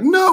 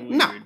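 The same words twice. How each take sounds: First: The no sounds emphatic and genuinely outraged. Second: The no sounds flat and half-hearted. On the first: The denial is sincere. The speaker calls it right. "I would have been like" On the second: The denial may not be sincere. The speaker calls it wrong. "That was not convincing at all"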